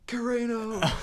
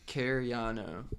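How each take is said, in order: First: The name is screamed loudly from the chest. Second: The name is spoken at a calm, normal volume. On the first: Someone else got the name wrong. The speaker calls it wrong. "he was like full like chest screaming like Carano" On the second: This is how the name is really pronounced. The speaker calls it right. "My name is Cariano"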